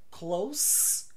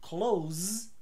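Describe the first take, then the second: First: The word ends in an s sound. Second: The word ends in a z sound. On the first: It means near. "close com S, perto" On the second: It means to shut. "Close com Z, fechar"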